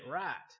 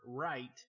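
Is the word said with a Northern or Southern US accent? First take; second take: Southern; Northern. First: It is said in a Southern US accent. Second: It is said in a Northern US accent. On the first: "and then at school, I could say right" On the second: "So at home, I could say the word right"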